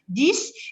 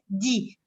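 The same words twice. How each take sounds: First: The final s sound is pronounced. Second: The final consonant is silent. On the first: The number stands alone. "lorsque dix est tout seul, on le prononce dix" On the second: Another word follows the number. "lorsqu'il y a un mot derrière dix, on le prononce dix"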